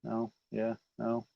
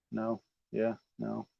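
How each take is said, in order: Both takes have the same delivery.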